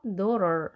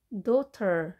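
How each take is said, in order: First: "daughter" said like dorer. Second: "daughter" with a clear T; T sounded. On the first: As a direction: soften the T in "daughter" into an R. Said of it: "R 발음에서". ("daughter"의 T를 R로 굴려서 발음) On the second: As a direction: say "daughter" with a crisp T in the middle. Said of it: "T 발음을 하지". ("daughter"의 T를 또렷하게 발음) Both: Shown as a demonstration.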